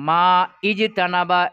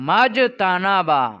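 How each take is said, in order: First: A break and an initial 'i' come before 'jtanaba'. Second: The words run together without the initial vowel. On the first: The speaker calls it wrong. "এরকম বলতে হবে কি? না।" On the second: The speaker calls it right. "মিলিয়ে পড়ো"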